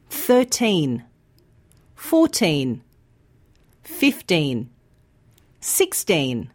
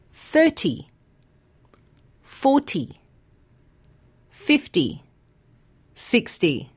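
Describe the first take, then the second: First: Put-on thirteen fourteen fifteen sixteen, each with a long clear teen; stress on teen. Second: Thirty forty fifty sixty, first syllable long, ty short; stress on first syllable. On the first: Teacher modelling teen numbers for learners, long teen. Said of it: "Have a listen to these words". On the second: Teacher modelling ty numbers for learners, first syllable long. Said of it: "this time have a listen". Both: Shown as a demonstration.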